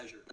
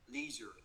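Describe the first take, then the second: First: Leisure with a short LEH vowel; British leisure. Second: Leisure with a long LEE vowel; American leisure. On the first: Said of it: "Giọng Anh nó là leisure". (leisure giọng Anh, âm E ngắn) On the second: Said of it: "you have to pronounce this word as leisure". (leisure giọng Mỹ, kéo dài chữ E) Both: Shown as a demonstration.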